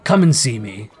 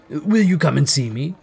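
First: Simple, lightly urged invitation; Scrooge inviting. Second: "Will you come and see me" lifted, rising at the end; pleading question. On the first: Scrooge inviting the old gentleman, gently urging. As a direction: say it as a falling request. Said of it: "retorted Scrooge". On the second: Scrooge asking the gentleman to visit, hopefully questioning. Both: A narrator's reading.

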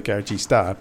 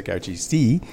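First: Garagista, ending on an open "ah". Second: Garagisti, ending on an "ee" sound; plural ending in I. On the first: Explaining the name everyone knows, Garagista ending in "ah". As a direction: say Garagista with a final "ah" vowel. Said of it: "A is what everyone knows". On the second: Explaining the less familiar plural, Garagisti ending in "ee". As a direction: say Garagisti with a final "ee" vowel. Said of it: "I is plural". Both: Shown as a demonstration.

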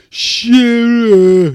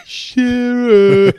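First: Loud, high shouted "Shearer"; mock shout of a name. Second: High, loud "Shearer" called out; mock shout of a name. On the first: Mate yelling "Shearer" at the footballer, loud. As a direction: bellow "Shearer" across the bar. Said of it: "I think he was like". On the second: Drunk fan calling out to Alan Shearer, shouted. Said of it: "it's like".

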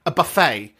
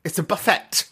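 First: "buffet" said posh as boo-FAY, no t; mock-posh "buffet" like BOO-fay; "buffet" the fancy French way, boo-fay; posh pronunciation. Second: Said in the usual way. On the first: Shown as a demonstration. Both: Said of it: "if you're that way inclined".

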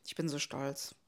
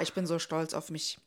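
First: Murmured, lower repeat of Ich bin so stolz; softer echo. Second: Said in the usual way. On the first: Real, not acted.

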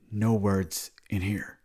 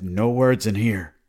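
First: Very slow, at an everyday volume; measured repeat order. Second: Loud, slow retold command; stern order. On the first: Retold or imitated. Man repeats his rule to the friend, slow and controlled. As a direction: space the words out slowly. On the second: Man tells the friend who starts talking, stern order. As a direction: lay down the rule, loud and drawn out.

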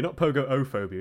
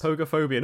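First: Pogo-ophobia with an extra o sound; pogo-ophobia stretched with a doubled o; wrong pronunciation. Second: Pogophobia said po-go-pho-bia, no extra o; correct pronunciation. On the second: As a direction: pogophobia with four syllables. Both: Shown as a demonstration.

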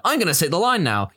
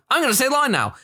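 First: Said in the usual way. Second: High, paced to lip flaps; timed to lip flaps. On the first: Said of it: "just by". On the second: Shown as a demonstration. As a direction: fit the line to the mouth flaps. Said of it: "in a very specific time frame".

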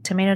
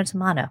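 First: Tomato said tuh-MAY-toh; tomato, middle syllable like "may". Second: Tomato said tuh-MAH-toh; tomato, middle syllable like "mah". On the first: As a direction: say tomato with a long AY. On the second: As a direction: say tomato with a broad AH. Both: Shown as a demonstration. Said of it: "it's like tomato".

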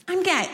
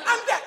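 First: Said in the usual way. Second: Squealed way up high. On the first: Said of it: "not, like, screaming it". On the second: Shown as a demonstration. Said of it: "not, like, screaming it all the time".

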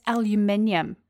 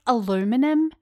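First: "aluminium" in five syllables, al-yoo-MIN-ium; New Zealand way. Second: "aluminum" in four syllables, a-LOO-mi-num, pitched up; American way. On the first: Kiwi podcaster giving listeners her own "aluminium". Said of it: "in New Zealand". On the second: Kiwi showing listeners the American "aluminum". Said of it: "in New Zealand, that's aluminium". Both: Shown as a demonstration.

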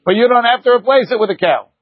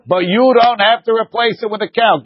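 First: Replace pushed a little higher, then falling; stress on replace. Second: You hit first, rest falling away; stress on YOU. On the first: Teacher arguing to a student, stress on replace. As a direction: lean on the word replace. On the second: Teacher pressing the point to a student, stress on you. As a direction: punch the word you, then let it fall. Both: Shown as a demonstration.

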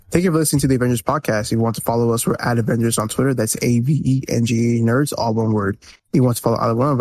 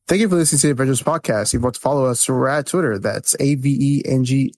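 First: Brisk confident outro read; podcast outro read. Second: Brisk outro read from memory; podcast outro read. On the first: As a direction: rattle off the sign-off smoothly. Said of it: "that's the show". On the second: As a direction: rattle off the sign-off. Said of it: "do the outro by memory". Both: Pretend.

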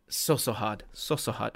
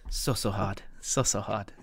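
First: Lower, softer breathy mumble; hushed manager voice. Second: Lower, softer breathy manager mumble; whispery fast Pep. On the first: Imitating managers' post-match interview voice, hushed. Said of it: "football managers, what they say every single time". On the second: Co-host imitating Pep's post-match interview voice, whispery. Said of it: "he'll say it in his whispery, fast voice". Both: Retold or imitated. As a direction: mimic a manager's hushed praise.

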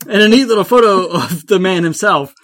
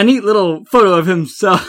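First: Louder, laughing through the line; amused reread, laughing; laughing re-read. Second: Laughing. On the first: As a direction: crack up while rereading it. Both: Real, not acted.

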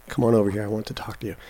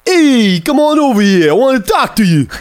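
First: Put-on soft, understated Brooklyn accent; hushed Brooklyn line, fading very quiet; Ryan Gosling's Brooklyn accent. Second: Loud, high, hammed-up Brooklyn accent; Ryan Gosling's Brooklyn accent. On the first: Host announces his impression to co-host, quiet Brooklyn accent. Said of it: "Ryan Gosling". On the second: Host bursts out the line for co-host, shouted Brooklyn accent. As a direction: holler it in a wildly overdone Brooklyn voice. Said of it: "It's a Brooklyn accent".

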